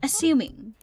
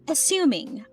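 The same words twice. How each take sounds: First: It is said in a British accent. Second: It is said in an American accent. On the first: "In British speaking" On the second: "We say assuming"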